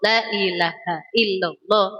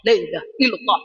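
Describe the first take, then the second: First: It is recited slowly with every syllable full. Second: It is recited quickly with a shortened syllable. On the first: "Ketika kita dikir pelan-pelan, maka semuanya dibaca"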